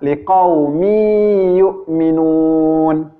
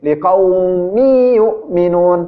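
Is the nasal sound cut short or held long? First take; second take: held long; cut short. First: The nasal hum is held long, unhurried. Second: The nasal hum is rushed and cut short. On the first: The speaker calls it right. "tetapi yang benar adalah" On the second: The speaker calls it wrong. "tidak menahan tanwinnya"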